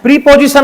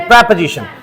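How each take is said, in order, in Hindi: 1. पहले अक्षर में लंबा 'ee' स्वर है। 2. पहले अक्षर में छोटा 'eh' स्वर है। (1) "प्रीपोजिशन नहीं बोलना है इसको" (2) "इसका सही प्रोनाउंसिएशन"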